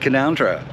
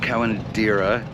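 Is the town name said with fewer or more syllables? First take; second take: fewer; more. First: The name is said with one syllable dropped. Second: The name is said with an extra syllable. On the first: The speaker calls it right. "Somehow there's a whole silent syllable in there somewhere" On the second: The speaker calls it wrong. "I've actually been mispronouncing the name of the town. It's not"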